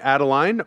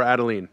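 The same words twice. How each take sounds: First: Adeline ending like "line"; pronunciation check. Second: Adeline ending like "lean"; alternative pronunciation. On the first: Host checking guest's grandmother's name, Adeline pronounced to end in "line". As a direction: say Adeline as AD-uh-line, rhyming with "sign". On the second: Host offering guest another way to say grandmother's name, Adeline ending in "leen". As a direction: say Adeline as AD-uh-leen, rhyming with "seen". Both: Shown as a demonstration. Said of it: "am I pronouncing it right".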